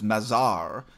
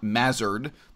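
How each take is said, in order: First: The name is pronounced the French way. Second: The name is pronounced the English way. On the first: The speaker calls it right. "you pronounce the name in a French way. You know, so my name is Mazar" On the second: The speaker calls it wrong. "not Mazard"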